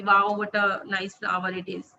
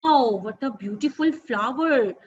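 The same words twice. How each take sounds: First: Said in the usual way. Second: Wow said slowly with a big falling tune; expressive intonation. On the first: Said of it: "smooth वे में ही बोल रही हूँ". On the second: Shown as a demonstration. Teacher demonstrates lively reading intonation on wow. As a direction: gush over the flower, wow drawn out. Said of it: "वाओ कहते हुए मेरा intonation".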